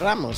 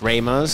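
First: The name is said with Spanish sounds. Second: The name is said with English sounds. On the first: "so in Spanish is Ramos" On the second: "in English, you know, A is Ramos"

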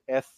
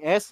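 First: The s sound is said the Spain Spanish way. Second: The s sound is said the plain way. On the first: The speaker calls it right. "you're going to have to say S" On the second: The speaker calls it wrong. "instead of saying S"

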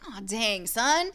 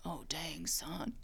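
First: It is said in the speaker's own voice. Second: It is said in a southern Hopper impression.

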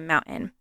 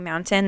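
First: The middle T is dropped. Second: The middle T is clearly pronounced. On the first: "they say mountain" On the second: "instead of saying mountain"

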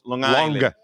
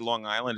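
First: Island is drawn out with a stretched vowel. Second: Island is said plainly, in a standard way. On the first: The speaker calls it right. "Like the island has a couple of I's in it" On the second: The speaker calls it wrong. "you don't say Long Island"

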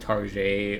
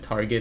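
First: The name is said in a fancy, French-like way. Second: The name is said in the plain, ordinary way. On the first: The speaker pretends the store is upscale. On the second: An ordinary, everyday store.

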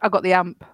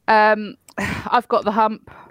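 First: The h at the start of hump is dropped. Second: The h at the start of hump is pronounced.

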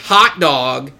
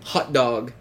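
First: The first vowel sounds like the 'o' in 'hot'. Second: The first vowel sounds like the 'u' in 'hut'. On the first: The speaker calls it right. "It's not a U, it's an O" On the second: The speaker calls it wrong. "You know what no one should say?"

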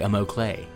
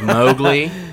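First: It is said as Amoklay, not like Mowgli. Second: It is said like the name Mowgli. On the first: The speaker calls it right. "say Amoklay" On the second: The speaker calls it wrong. "Instead of saying like Mowgli, from, you know, Jungle Book"

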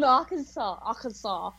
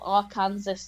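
First: The word ends in 'saw' with a silent s. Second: The word ends like 'Kansas' with an s sound. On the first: The speaker calls it right. "I've done Arkansas" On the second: The speaker calls it wrong. "which I used to call Arkansas to. Until I got laughed at"

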